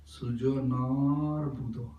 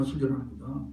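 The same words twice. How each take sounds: First: "Sujanar" with the "na" held long. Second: "Sujanar" said quickly with no held vowel; short A. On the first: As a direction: slowly draw out the long A in "Sujanar". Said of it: "There is A means long A". ("Sujanar" में "ना" को लंबा खींचकर) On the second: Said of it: "no, Sujanar Buddha". ("Sujanar" में "ना" को बिना खींचे, छोटा बोलकर) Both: Shown as a demonstration.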